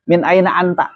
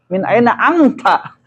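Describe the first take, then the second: First: Said in the usual way. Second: Slow, drawn-out "Min aina anta?" with the nun nasalized as ikhfa, ending in a laugh; "Min aina anta?" read slowly with full tajwid and a little laugh. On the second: Shown as a demonstration. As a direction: recite "Min aina anta?" like Quran reading, stretching "aina" and nasalizing before "anta". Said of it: "Tajwidnya gimana?".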